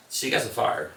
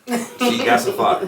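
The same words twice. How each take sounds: First: Said in the usual way. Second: Higher, slower, stressing GOT; proud repeat of "She got some fire", pitched up and slow; emphatic repeat. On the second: Acted.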